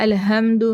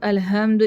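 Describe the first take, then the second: Both takes have the same delivery.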